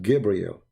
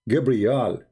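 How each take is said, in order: First: The final syllable is said as 'el'. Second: The final syllable is said as 'al'. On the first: This is the later changed form of the name. The speaker calls it wrong. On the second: This is the ancient form of the name. The speaker calls it right.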